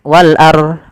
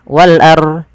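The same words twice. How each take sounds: The two takes are said the same way.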